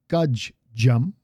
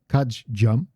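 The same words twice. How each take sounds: First: The pause inside the word is drawn out long. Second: The pause inside the word is brief. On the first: "I exaggerated the pause a little bit this time" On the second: "but it's kajjam"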